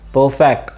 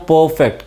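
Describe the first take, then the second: First: The stress is on the second syllable. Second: The stress is on the first syllable.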